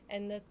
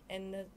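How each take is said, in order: The two takes are said the same way.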